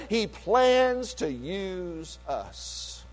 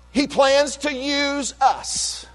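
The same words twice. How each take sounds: First: Quiet repeat. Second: Emphatic preaching. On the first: Pastor repeating his point to the church, hushed and slow. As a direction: drop to a near hush to let it sink in. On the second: Pastor proclaiming to his congregation, slow and emphatic. Pastor stresses God's plan for believers. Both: Real, not acted.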